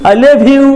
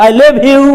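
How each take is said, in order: No difference in how they are said.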